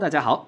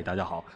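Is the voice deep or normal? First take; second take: normal; deep. First: It is said in the speaker's normal voice. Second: It is said in a deliberately deep voice.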